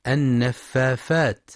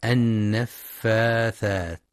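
First: النفافات with f in place of th; wrong f for th. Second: النفاثات with a clear th, drawn out slowly; correct th. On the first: Teacher imitates the children's mistake, f sound. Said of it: "يبدلون الثاء فاء". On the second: Teacher models the correct th, slowly. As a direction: say النفاثات slowly, tongue between teeth. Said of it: "لنطقها الصحيح بالثاء". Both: Shown as a demonstration.

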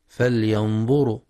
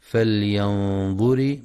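First: فلينظر wrongly ending in ru; the faulty reading of فلينظر, rounded -ru ending; mistaken damma on ra. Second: فلينظر ending in a short ri; فلينظر recited with held nasal n, ending -ri; correct kasra on ra. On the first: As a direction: say فلينظر with u after the r. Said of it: "بضم الراء". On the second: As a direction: say فلينظر slowly with i after the r. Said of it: "والصواب كسرها". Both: Shown as a demonstration.

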